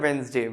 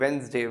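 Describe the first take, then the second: The two takes are said the same way.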